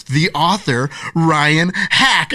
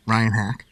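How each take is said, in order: First: Building announcement, louder on the name; proud reveal. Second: Said in the usual way. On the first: Retold or imitated. Mom revealing the author to her kids, proud announcing build. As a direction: lift toward "Ryan Hack" like a big reveal.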